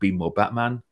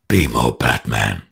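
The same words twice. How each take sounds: First: It is said in the speaker's normal voice. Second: It is said in a gravelly put-on voice.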